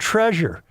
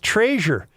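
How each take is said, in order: First: The word has the standard pronunciation. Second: The word has a local regional pronunciation. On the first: This is the usual way to say it. The speaker calls it right. "rather than" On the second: This is how the local family says it. The speaker calls it wrong. "My mother still says"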